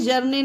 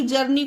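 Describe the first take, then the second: First: "जर्ने" with an ay ending; wrong vowel. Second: "जर्नी" ending in long ee; correct vowel. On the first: Teacher telling guys not to misread, "जर्ने" with ay. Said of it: "जर्ने नहीं पढ़ते हैं". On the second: Teacher giving the right reading, "जर्नी" with ee. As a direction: say "जर्नी" with ee at the end. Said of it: "जर्नी को जर्नी पढ़ते हैं". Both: Shown as a demonstration.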